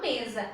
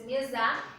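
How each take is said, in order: First: The stress is on the first syllable. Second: The stress is on the last syllable. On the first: The speaker calls it right. "Eu falo mesa" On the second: The speaker calls it wrong. "se fosse mesa, eu, preciso, eu colocaria acento"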